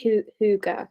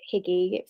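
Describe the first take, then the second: First: The word is said the Danish way. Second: The word is said as 'higgy'. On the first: The speaker calls it right. "but it's Hygge, which is like the Danish way" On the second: The speaker calls it wrong. "like Higgy, so you might pronounce it"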